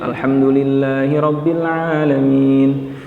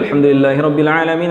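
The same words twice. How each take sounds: First: It is recited at a moderate pace. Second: It is recited quickly and briskly. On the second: "Itu tadwir tuh, cepat"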